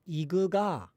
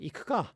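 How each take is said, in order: First: The k sounds become voiced g sounds. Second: The k sounds stay voiceless throughout. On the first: This is the Northern Japanese dialect form. "a lot of K's become G's" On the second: This is the standard Japanese form. "you could say ikuka"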